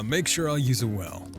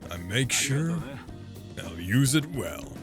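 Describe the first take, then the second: First: It is said in a higher voice. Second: It is said in a deep, low voice.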